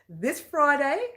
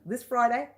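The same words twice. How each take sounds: First: It is said slowly. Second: It is said quickly.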